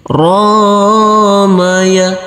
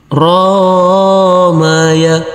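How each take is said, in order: No difference in how they are said.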